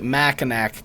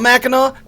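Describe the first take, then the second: First: The word ends with a clear k sound. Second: The word ends with an aw sound, no k. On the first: "I purposefully pronounce it Mackinac because it pisses everybody in Michigan off" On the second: "You want me to call it Mackinac? Take the C off"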